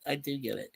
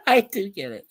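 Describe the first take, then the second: First: "I do get it" said again much softer; softer echo of "I do get it", almost to himself; quiet repeat. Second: Said in the usual way. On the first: Shown as a demonstration. Repeating "I do get it" softly to chat.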